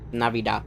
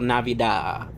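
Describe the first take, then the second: First: The word is said quickly and smoothly. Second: The word is said slowly and drawn out. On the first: The speaker calls it right. "Supposed to say it quickly" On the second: The speaker calls it wrong. "people go Navidad"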